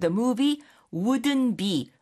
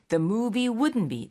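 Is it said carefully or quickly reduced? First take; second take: carefully; quickly. First: Every sound is said carefully and fully. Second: It is said quickly with sounds reduced.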